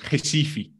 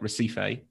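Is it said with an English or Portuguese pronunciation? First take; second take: Portuguese; English. First: It is said with a Brazilian Portuguese pronunciation. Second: It is read the way a British speaker would.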